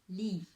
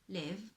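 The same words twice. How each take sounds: First: The vowel is a tense, French-style i sound. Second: The vowel is a short, lax i sound. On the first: The speaker calls it wrong. "On ne va pas dire" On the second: The speaker calls it right. "va être un son très court"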